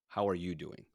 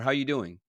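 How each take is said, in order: First: It is said slowly and deliberately. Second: It is said quickly and casually.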